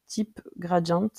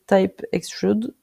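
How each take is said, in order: First: "Type Gradient" said the French way, with French vowels and stress on the last syllable; French pronunciation. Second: "Type Extrude" said with a light English accent, "Type" as English "taip". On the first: Tutor reading a tool name to viewers, in French pronunciation. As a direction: read "Type Gradient" as if it were French words. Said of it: "Voilà, en français je le dis". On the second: Tutor naming the tool for viewers, in a light English accent. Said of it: "Avec l'accent anglais, c'est quand même mieux". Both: Shown as a demonstration.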